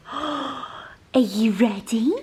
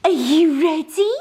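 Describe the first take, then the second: First: Gasp, then a breathy secret whisper; teasing whisper. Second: Much higher and louder, bursting; excited dog talk. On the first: To her dog before walkies, teasing whisper. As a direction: hush it like a surprise for the dog. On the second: To her dog before walkies, loud excited squeal. Hyping the dogs for walk. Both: Real, not acted.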